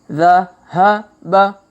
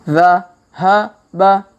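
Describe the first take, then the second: No difference in how they are said.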